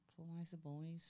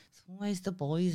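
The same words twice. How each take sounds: First: Much softer, muttered aside; quiet repeat. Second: Said in the usual way. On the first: Real, not acted. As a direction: drop it to a near-mutter, as if to yourself.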